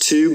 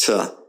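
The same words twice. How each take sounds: First: "to" as TOO, long oo; full-vowel to. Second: "to" as tuh, short schwa; weak to. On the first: Teacher showing the form not used, "to" as too. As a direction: say "to" fully as too. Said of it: "it's not pronounced to". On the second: Teacher showing the spoken form, "to" as tuh. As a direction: reduce "to" to a quick tuh. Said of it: "but it's pronounced to". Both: Shown as a demonstration.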